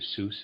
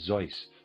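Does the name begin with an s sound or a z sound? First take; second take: s sound; z sound. First: The name begins with an s sound. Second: The name begins with a z sound.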